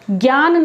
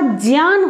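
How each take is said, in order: First: The word starts with a g sound. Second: The word starts with a j sound. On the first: The speaker calls it wrong. "नहीं होता" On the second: The speaker calls it right. "होता है"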